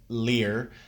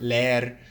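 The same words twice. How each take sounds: First: It is said with an English accent. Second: It is said with a Spanish accent. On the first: The speaker calls it wrong. "says leer uh, as an English speaker, and that's simply just not the correct pronunciation" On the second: The speaker calls it right. "whenever you hear a Spanish speaker say the word leer"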